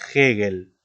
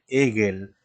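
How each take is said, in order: First: The H is sounded like a harsh J. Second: The H is silent. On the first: The speaker calls it right. "Como si fuera una J" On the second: The speaker calls it wrong. "tampoco podemos decir Hegel"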